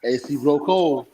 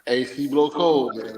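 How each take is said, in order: First: Slow, smooth sales pitch; slick used car salesman. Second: Slow, drawn-out sales pitch; slick used car salesman. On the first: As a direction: sell the AC like a car dealer. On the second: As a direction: repeat the pitch slowly, selling it. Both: Acted. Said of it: "That's that car salesman pitch".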